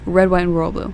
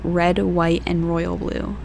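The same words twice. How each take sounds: First: The phrase is said quickly and runs together. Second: The phrase is said slowly and carefully. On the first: The speaker calls it wrong. "I can't say it fast" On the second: The speaker calls it right. "I have to say it slowly"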